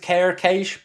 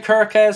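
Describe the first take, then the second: First: The name ends with an 'sh' sound. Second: The name ends with a 'z' sound. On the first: "some people are saying that it is Kerkesh" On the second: "some people say Kerkez"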